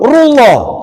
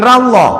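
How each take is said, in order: First: The r is followed by a u vowel. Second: The r is followed by an a vowel. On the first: The speaker calls it right. "Kalau mau diwasul" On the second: The speaker calls it wrong.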